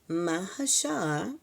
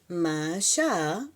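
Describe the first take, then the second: Both takes have the same delivery.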